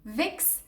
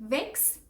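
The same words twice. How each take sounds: No difference in how they are said.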